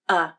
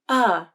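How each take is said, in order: First: The pitch is flat, lower and quicker. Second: The pitch glides up and then down. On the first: The vowel is in an unstressed syllable. "the pitch of the voice is flatter, and the vowel is said faster and at a lower pitch" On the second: The vowel is in a stressed syllable. "When uh is in a stressed syllable, the pitch of the voice glides up and then down"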